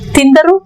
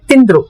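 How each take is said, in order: First: All three syllables are clearly pronounced. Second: The middle vowel is dropped, giving two syllables.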